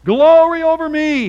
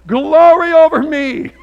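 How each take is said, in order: First: High, loud and mocking; sarcastic reading. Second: Drawn out, high and mocking; sarcastic reading. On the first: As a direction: toss it off sarcastically. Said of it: "Let's see if Pharaoh's for real". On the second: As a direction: say it with a sarcastic sneer. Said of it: "I could read it sarcastically".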